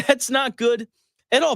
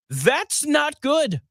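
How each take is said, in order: First: Laughing repeat. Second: Dry sarcastic stress. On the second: Sarcastic understatement on aging strength. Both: Real, not acted.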